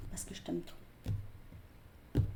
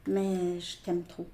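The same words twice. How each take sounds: First: Slow whispered "je t'aime trop"; slow tender whisper of love. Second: Said in the usual way. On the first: Retold or imitated. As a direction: breathe the confession, barely voiced.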